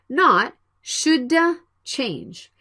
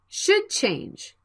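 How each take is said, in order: First: The d is released before the next word. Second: The d blends smoothly into the next word. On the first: The speaker calls it wrong. "not ... Please don't drop your tongue when you speak the word should" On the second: The speaker calls it right.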